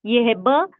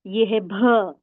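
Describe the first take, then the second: First: ब said unaspirated, plain b; plain ब sound. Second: भ said with a puff of breath, bh; aspirated भ sound. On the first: Teacher contrasting ब with भ, unaspirated. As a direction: say ब with no breath after it. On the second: Teacher contrasting भ with ब, aspirated. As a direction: say भ with breath released after the b. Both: Shown as a demonstration. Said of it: "सिर्फ मैं sound ले रही हूँ".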